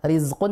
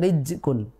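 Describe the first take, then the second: First: The consonant before q is a z sound. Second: The consonant before q is a j sound. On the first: The speaker calls it right. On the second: The speaker calls it wrong.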